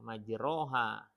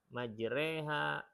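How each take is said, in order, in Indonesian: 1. Vokal setelah r terbuka, tanpa imalah. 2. Vokal setelah r condong ke e. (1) "ketika yang satu baca salah" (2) "Ketika diingatkan"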